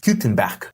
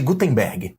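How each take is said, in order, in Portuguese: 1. O nome é pronunciado com a pronúncia alemã. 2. O nome é pronunciado com a pronúncia do português brasileiro. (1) "pronunciado em alemão, seria algo parecido com" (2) "A gente chama ele de Gutenberg, né, aqui no Brasil"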